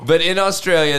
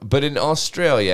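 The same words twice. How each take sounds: First: It is said in an attempted Australian accent. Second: It is said in the speaker's usual accent.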